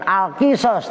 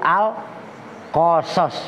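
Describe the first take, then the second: First: The vowel after the Q is 'i'. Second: The vowel after the Q is 'a'. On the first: The speaker calls it wrong. "Bukan Al-Qisas" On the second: The speaker calls it right. "tapi Al-Qasas"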